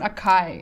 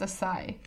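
First: The middle consonant is a k sound. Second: The middle consonant is an s sound. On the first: The speaker calls it wrong. "It's not akai" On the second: The speaker calls it right. "It's asai"

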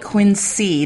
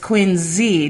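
First: The name is said the outsider way. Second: The name is said the local way. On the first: The speaker is not from around here. The speaker calls it wrong. "they don't call it Quincy. That's how they know you're not from around here" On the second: The speaker is from around here. The speaker calls it right. "It's Quincy"

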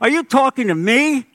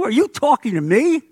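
First: It is said in a New Jersey accent. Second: It is said in the speaker's plain voice.

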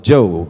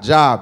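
First: The vowel is long, like in 'robe'. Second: The vowel is short, like in 'job'. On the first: The speaker calls it right. "it's pronounced like J-O-B-E" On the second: The speaker calls it wrong. "It's not Job"

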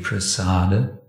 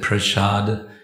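First: It has an 's' sound and a final vowel. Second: It has an 'sh' sound and no final vowel. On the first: It follows the original Sanskrit form. "Sanskrit would be prasada" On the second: It follows the Bengali way of saying it. "we often pronounce it prashad because we like to sound Bengali"

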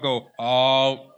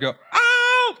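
First: It starts low with little energy. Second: It starts high with lots of energy. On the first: The speaker sounds bored. The speaker calls it wrong. "Don't start low" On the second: The speaker sounds enthusiastic. The speaker calls it right. "Start high"

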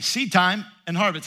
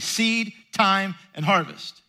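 First: It is said as one unbroken phrase. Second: Pauses separate seed, time, and harvest.

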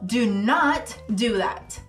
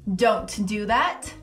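First: Not is said fully as its own word. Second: Not is contracted into a single word, don't. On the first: The request is emphasized. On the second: A neutral, ordinary request.

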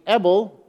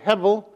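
First: The word begins directly with a vowel. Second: The word begins with an h sound. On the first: "and then drop the H" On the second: "you say hevel"

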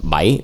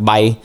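First: The pitch moves like a question. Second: The pitch stays flat and level. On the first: It means seven. "if you say it like a question" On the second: It means to fly. "if you say it with like a flat accent"

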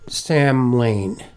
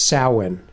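First: It is said as it looks, 'sam-hane'. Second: It is said as 'sow-en', like 'sow'. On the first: The speaker calls it wrong. "now I would pronounce this word Samhain. That's the way it looks" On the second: The speaker calls it right. "the real pronunciation I discovered is Samhain"

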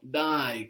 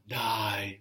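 First: It sounds urging, pushing someone to hurry. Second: It sounds disbelieving, like rejecting a claim. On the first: Come on, hurry up. "It's all depending on the tone of voice, no? Dai, come on" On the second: No way, you're kidding. "dai, no way"

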